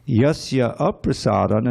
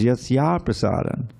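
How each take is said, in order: First: The two a-sounds are said separately. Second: The two a-sounds merge into one. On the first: "and those two A's" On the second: "The last A in Yasya and the first A in aprasadam becomes Yasya prasadam"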